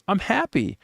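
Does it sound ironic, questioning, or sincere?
sincere. It is said with a sincere tone. The speaker really is happy.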